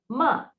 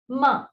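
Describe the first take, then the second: No difference in how they are said.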